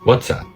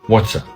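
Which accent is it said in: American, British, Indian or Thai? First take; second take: American; American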